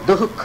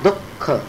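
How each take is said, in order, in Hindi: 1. सादा ख बिना आधे क जैसी ध्वनि के सुनाई देता है। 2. ख से पहले आधे क जैसी ध्वनि सुनाई देती है। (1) "दुख ऐसा नहीं बोलते" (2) "वो आधे क जैसा उच्चारण होता है"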